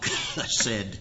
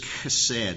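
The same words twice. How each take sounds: First: The word begins with a throaty, cough-like sound. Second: The word begins with a soft, plain sound. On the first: The speaker calls it right. "there's more of a cough, chesed, in the beginning of the word" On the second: The speaker calls it wrong. "I'm not saying that right"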